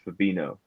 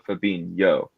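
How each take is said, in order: First: The last syllable has a plain 'no' sound. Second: The last syllable has a 'nyo' sound. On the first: "if Fabinho was spelled without the H, it would just be Fabino" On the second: "it creates the yo sound"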